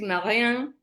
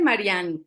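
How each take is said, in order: First: The name is said with French pronunciation. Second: The name is said with Spanish pronunciation. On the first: This is how the name is said in France. "cuando lo pronuncian bien, ¿verdad? Que es Marianne" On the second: This is how people usually call her at home. "me dicen Marianne"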